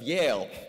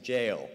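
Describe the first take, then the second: First: The word begins with a Y sound. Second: The word begins with a J sound.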